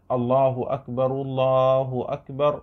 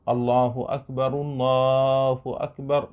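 The two takes are said the same way.

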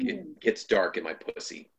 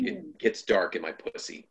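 First: It is said in a quiet, self-reflective tone. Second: It is said in a quiet, self-reflective tone.

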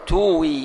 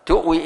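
First: The glottal stop becomes a long vowel. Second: The glottal stop is pronounced clearly.

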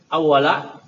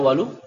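First: The word ends with a short 'a' vowel. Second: The word ends with a short 'u' vowel. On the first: The word is the fronted predicate of the verb. "awwala itu berarti sebagai khabar muqaddam" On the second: The word is the subject of the verb. "Kalau awwalu boleh dibaca awwalu isim"

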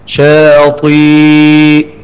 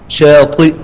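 First: The final hamza becomes a plain long ya sound. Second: The final hamza is softened with a faint vowel. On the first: "تبدأ الحرف مد من جنس ما قبل" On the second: "والتسهيل بالرو"

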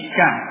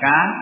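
First: The k has a slight breath after it. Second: The k has no breath after it. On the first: The speaker calls it right. "tapi ka ya" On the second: The speaker calls it wrong. "Yang tanpa tekanan ya, tanpa syiddah"

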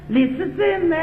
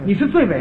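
First: It is spoken with a Cantonese-flavored accent. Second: It is spoken in standard Mandarin pronunciation.

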